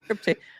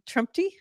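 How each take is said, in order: First: The name is said without an m sound. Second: The name is said with an m sound. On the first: The speaker calls it right. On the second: The speaker calls it wrong.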